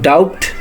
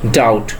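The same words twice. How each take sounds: First: The B sound is pronounced. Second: The B sound is silent. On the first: The speaker calls it wrong. "not doubt" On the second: The speaker calls it right. "It will be doubt"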